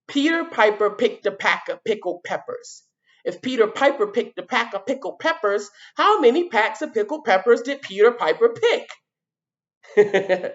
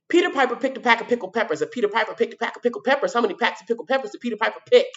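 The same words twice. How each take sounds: First: It is said at a normal speed. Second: It is said fast.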